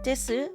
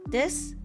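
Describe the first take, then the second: First: The final u vowel is clearly pronounced. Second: The final u vowel is dropped. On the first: The speaker calls it wrong. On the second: The speaker calls it right.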